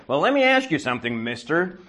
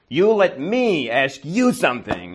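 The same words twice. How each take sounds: First: Imitating an upset woman, higher and pointed; mock indignant. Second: "you" and "me" punched, slow and higher; emphatic retort. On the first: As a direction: challenge him like an offended caller. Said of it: "Marie gets really upset". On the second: Retold or imitated. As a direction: turn it back, stressing "you" and "me". Throws her demand back at her.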